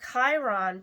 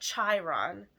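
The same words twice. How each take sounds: First: It begins without the 'ch' sound of chariot. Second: It begins with the 'ch' sound of chariot. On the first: The speaker calls it wrong. "I'm saying it wrong" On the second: The speaker calls it right. "begins with the C H of chariot and child"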